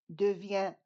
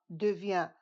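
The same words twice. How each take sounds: No difference in how they are said.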